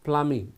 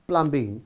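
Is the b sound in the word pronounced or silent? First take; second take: silent; pronounced. First: The b sound in the middle is silent. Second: The b sound in the middle is pronounced. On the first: The speaker calls it right. "it's plumbing මේ B එක silent" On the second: The speaker calls it wrong. "it is not plumbing"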